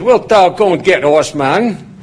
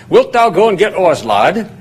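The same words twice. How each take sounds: First: A light Yorkshire farmhand lilt, raised question; Yorkshire accent. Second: Light Yorkshire lilt, higher start on Wilt; a mild imitation of a Yorkshire farmer calling the lad; Yorkshire accent. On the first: Retold or imitated. Farmhand David asking the student to fetch something, mild Yorkshire imitation. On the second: Farmhand David asking the young student, light Yorkshire imitation. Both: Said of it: "he said it heavier and faster than that".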